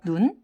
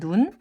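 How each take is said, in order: Both takes have the same delivery.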